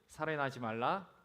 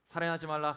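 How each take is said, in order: First: It is said slowly. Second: It is said quickly.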